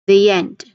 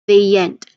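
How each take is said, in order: The two takes are said the same way.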